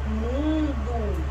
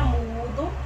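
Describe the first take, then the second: First: "mundo" with a drawn-out nasal U. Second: "mudo" with a pure oral U; oral vowel MUDO. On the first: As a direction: hold the nasal first syllable of "mundo". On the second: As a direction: say "mudo" with no nasal before the D. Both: Shown as a demonstration. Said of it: "Olha o som que mudou".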